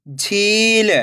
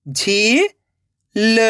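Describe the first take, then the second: First: झील joined as one word with long ई; blended word. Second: झील split into झी, long pause, ल; rising झी, then ल alone; syllable by syllable. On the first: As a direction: read झील whole, stretching the झी. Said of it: "खींच के पढ़ना है". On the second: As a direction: sound out झील very slowly in two parts. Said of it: "एक एक अक्षर का उच्चारण करना है". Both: Shown as a demonstration.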